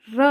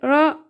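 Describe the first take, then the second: First: "र" as a direct, full R; a firm, fully tapped "र"; correct R. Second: "र" as a weak, light R; a faint "र" counterexample; wrong R demo. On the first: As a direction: sound "र" fully and clearly. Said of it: "र आएगा". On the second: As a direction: barely sound "र", as the one to avoid. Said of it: "यहाँ पे र नहीं आएगा". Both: Shown as a demonstration.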